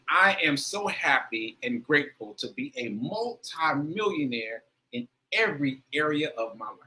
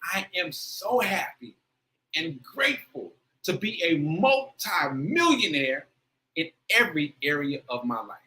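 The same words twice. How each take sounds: First: It is said with less feeling. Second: It is said with more feeling.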